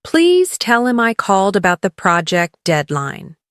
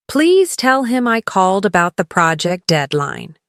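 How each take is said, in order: Both takes have the same delivery.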